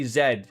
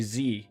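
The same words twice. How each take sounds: First: The letter is said the Canadian way. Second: The letter is said the American way.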